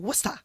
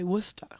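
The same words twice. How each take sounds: First: It is said the Massachusetts way. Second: It is said the English way.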